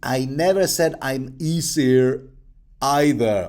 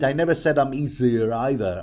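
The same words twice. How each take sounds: First: It is said slowly and deliberately. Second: It is said at normal speed.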